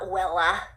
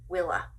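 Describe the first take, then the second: First: The first vowel sounds like 'eh'. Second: The first vowel sounds like 'ih'. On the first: The speaker calls it wrong. "it's not Wella" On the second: The speaker calls it right. "W I L L A"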